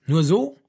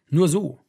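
First: "Nur so" with a rising question tune; "Nur so" louder, turned into a sceptical question; questioning echo. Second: Said in the usual way. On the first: A narrator's reading. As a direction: echo "Nur so" back, pitch climbing at the end. Listener echoes the answer as question.

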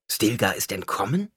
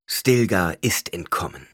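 First: "entkommen" lifted in a rising question. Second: Slow, firm "Stilgar ist entkommen", falling at the end; confirming statement. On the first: Someone checks the news with Paul, "entkommen" rising as a question. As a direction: ask it back, voice climbing on "entkommen". Someone asks back, then confirmed. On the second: Paul confirms the news, slow falling "entkommen". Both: A narrator's reading.

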